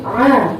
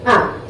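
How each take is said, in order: First: "A" lang gedehnt als kehliges Ain; falsches Ain. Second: "A" short, with a clean glottal onset; richtiges Hamzah. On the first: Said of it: "bukan A, tapi A". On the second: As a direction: say "A" briefly as Hamzah, not Ain. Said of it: "Hamzah, di dalam satu kalimat". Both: Shown as a demonstration.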